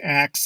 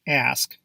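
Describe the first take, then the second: First: The word ends with a k then s. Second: The word ends with an s then k. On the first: The speaker calls it wrong. "pronounce this word as ax instead of ask" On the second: The speaker calls it right. "Proper pronunciation is"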